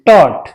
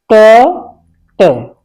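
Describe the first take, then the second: First: Said in the usual way. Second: टॉट held long and slow; slow drawn taught. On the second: Shown as a demonstration. Teacher stretching टॉट slowly for students. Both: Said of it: "इस तरह से टॉट".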